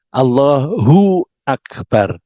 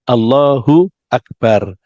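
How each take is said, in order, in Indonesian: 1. Allah berakhir dengan vokal u sebelum Akbar. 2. Allah berakhir dengan vokal u sebelum Akbar.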